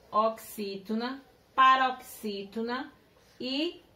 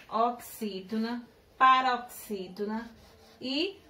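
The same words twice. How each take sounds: The two takes are said the same way.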